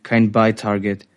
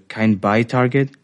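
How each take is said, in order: First: Said in the usual way. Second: "Kein Buy-Target" lifted into a question; questioning repeat. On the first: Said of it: "die sachliche Stimme der Autorität". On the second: A narrator's reading. Operator checks with the authority, "Kein Buy-Target" as question. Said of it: "Ich wiederholte".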